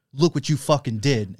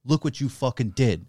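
First: Louder and higher, building resolve; present, rallying. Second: Past, grieving. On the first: The cohost voicing the second ghost, rousing and loud. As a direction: lift the room with it. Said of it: "And then it's like". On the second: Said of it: "it goes like". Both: Retold or imitated.

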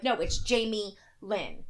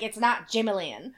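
First: "Jamie Lynn" slowly, as two distinct words; separated name. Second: "Jamie Lynn" run together as one word, Jamalynn; run-together name. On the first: Mom correcting the birth certificate, "Jamie Lynn" said slowly as two names. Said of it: "had to change that shit". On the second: Mom rejecting grandma's version, "Jamie Lynn" run together as one word. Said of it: "All one word, you mean?". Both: Retold or imitated.

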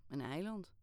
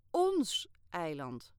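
First: Said in the usual way. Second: "Ons" leaned on hard and drawn out, slow and loud; stress on ons. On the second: Acted. Girl correcting Kayale, slowly stressing "Ons". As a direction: correct him by punching "Ons". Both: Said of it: "verbeterde ik hem".

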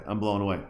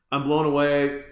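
First: Said in the usual way. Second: I'm blown away, said louder with more punch on blown; repeating I'm blown away louder for emphasis; blown away repeated louder. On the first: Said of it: "I'm so blown away". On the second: Real, not acted. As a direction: hit blown harder the second time.

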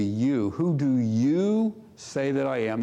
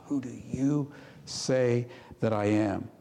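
First: "you" leaned on harder than the rest of the line; stress on you. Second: Whisper. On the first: Preacher showing the emphatic "you" to his congregation, stressed. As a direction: press the word "you" in "Who do you say that I am?". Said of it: "That's in the emphatic position". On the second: Personal question after not mom, not dad. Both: Shown as a demonstration.

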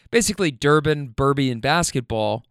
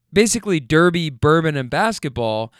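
First: Swapped endings in "Durbin, Burby"; tongue slip. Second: Said in the usual way. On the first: Real, not acted. Listing Kentucky's best, slipping into "Durbin, Burby". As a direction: say "Durbin, Burby" with the two word endings switched. Slip, then retaken correctly.

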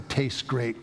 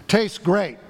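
First: Said in the usual way. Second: Loud, high call into the microphone; really loud voice. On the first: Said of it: "When I said, 'Tastes great,'". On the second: Retold or imitated. Chaplain calling out to two thousand students, loud. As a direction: belt it out to the whole room. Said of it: "he said in a really loud voice".

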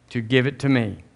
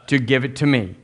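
No difference in how they are said.

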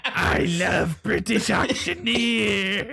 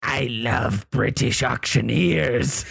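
First: Slow, high eerie creature; creature voice, higher. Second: Slow, eerie monster voice; creature voice. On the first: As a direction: stretch it out, pitched up. GM repeats the monster line. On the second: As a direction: drawl it like a strange beast. GM voices the Enfield Horror. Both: Acted.

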